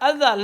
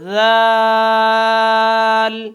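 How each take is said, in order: First: An extra vowel is added before the word. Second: The word begins directly with its consonant. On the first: The speaker calls it wrong. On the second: The speaker calls it right.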